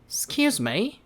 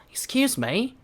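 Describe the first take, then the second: No difference in how they are said.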